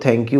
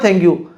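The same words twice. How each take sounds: First: It is said very softly and quietly. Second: It is said loudly and clearly. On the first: The thanks sounds half-hearted. The speaker calls it wrong. "इतना धीरे से बोलें" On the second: The thanks is sincere and clearly expressed. The speaker calls it right. "ज़ोर से बोलो ना"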